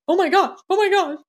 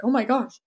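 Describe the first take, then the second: First: Much higher, louder rising panic; husband panicking when his wife starts crying; imitating husband's panic. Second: Imitating husband's alarm. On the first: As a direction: play the flustered husband, alarmed and climbing. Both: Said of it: "the first few times he's like".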